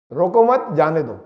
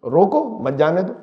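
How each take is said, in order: First: روکو مت as one unit, then a lower جانے دو; group مت with روکو, break before جانے دو; pause after مت. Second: روکو set apart, مت leaning onto جانے دو; pause after روکو. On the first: Teacher repeating the same words to contrast meanings, pause after مت. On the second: Teacher contrasting two readings of one sentence, pause after روکو. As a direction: break right after روکو, keep مت with جانے دو. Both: Shown as a demonstration. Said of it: "الفاظ تو وہی تین ہیں".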